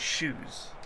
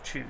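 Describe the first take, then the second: First: The word starts with a soft sh sound. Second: The word starts with a ch sound. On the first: This is how Swedish speakers say it. The speaker calls it wrong. "Swedes tend to say shoes instead of choose" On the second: This is the standard pronunciation. The speaker calls it right. "instead of choose"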